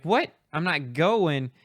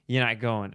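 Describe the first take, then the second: First: High, loud "what", then slow incredulous echo; retold stunned questioning, pitch jumping up; shocked disbelief. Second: Retold matter-of-fact refusal; firm bad news. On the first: Student hears he won't graduate, shocked. Student reacts to being refused. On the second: Caller tells student about graduation, firm. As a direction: state it as settled, falling at the end.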